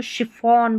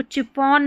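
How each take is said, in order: First: शिफॉन starting with a sh sound; correct pronunciation. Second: चिफॉन starting with a ch sound; wrong pronunciation. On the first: Teacher corrects the word for learners, शिफॉन with sh. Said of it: "इसको शिफॉन बोलेंगे". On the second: Teacher shows learners the mistake, चिफॉन with ch. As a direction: misread chiffon as "chi-fon", चिफॉन. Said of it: "चिफॉन नहीं बोलेंगे". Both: Shown as a demonstration.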